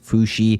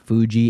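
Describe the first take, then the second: First: The middle consonant sounds like 'sh'. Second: The middle consonant sounds like 'j'. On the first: The speaker calls it right. "it's Fushi" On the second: The speaker calls it wrong. "It's not Fuji"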